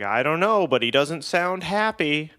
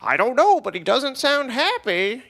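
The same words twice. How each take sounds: First: Raised-pitch sitcom-style quip; quipped punchline. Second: Hammed-up sitcom line, very high and loud; really stupid delivery. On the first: Retold or imitated. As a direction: toss out a joke to the group. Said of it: "I was like". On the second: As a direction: oversell the punchline in a silly voice. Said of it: "say it in a really stupid way".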